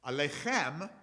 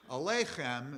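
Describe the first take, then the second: First: Aleichem stressed on the final syllable; Eastern Hebrew pronunciation. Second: Aleichem stressed on the middle syllable. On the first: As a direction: punch the last syllable of Aleichem, -CHEM. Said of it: "what they would have said in Eastern places". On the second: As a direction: punch LEI in Aleichem, weak final syllable. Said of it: "is what they said in Europe". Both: Shown as a demonstration.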